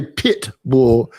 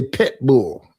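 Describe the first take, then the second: First: "pit bull" with a crisp short i in pit; slow, careful "pit bull"; standard pronunciation. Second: "pet bull" with pit turned to pet; Southern-style "pet bull", short e in the first word; Southern pronunciation. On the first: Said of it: "They don't say pit bull". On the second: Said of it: "They say pet bull". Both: Shown as a demonstration.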